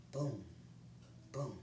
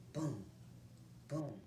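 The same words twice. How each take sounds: The two takes are said the same way.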